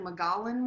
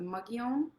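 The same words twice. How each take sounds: First: The word is pronounced letter by letter as spelled. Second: The word is pronounced differently from its spelling. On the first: The speaker calls it wrong. "it looks like Mogollon Rim" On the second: The speaker calls it right. "but it's the Mogollon"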